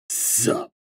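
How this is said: It is said in a rougher, grizzled voice.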